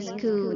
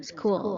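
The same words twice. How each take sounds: First: "school" with an extra vowel before it, said sa-khu; "school" split into two beats, Thai style; Thai-accented school. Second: "school" with a tight sk cluster, no added vowel; "school" said as one syllable; correct school. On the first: Teacher shows students the Thai way, sa-khu school. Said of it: "ถ้าเป็นสำเนียงไทยๆ ก็จะเป็น". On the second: Teacher shows students the correct school pronunciation. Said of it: "ที่จริงก็จะเป็น". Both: Shown as a demonstration.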